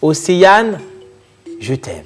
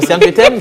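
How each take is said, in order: First: It is said with deep, intense feeling. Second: It is said flatly, without any feeling.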